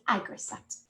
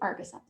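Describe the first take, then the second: First: The word begins with an 'ag' sound. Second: The word begins with an 'ar' sound. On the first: The speaker calls it right. "It's Agricept" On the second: The speaker calls it wrong. "I always pronounce that wrong. I say Argicept"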